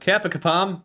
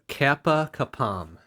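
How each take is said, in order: First: It is said at a quick pace. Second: It is said at a slow pace.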